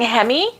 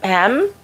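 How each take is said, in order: First: The word ends in an added 'ee' vowel sound. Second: The word ends in a bare 'm' sound. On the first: "I'm saying hemi" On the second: "but it could be hem"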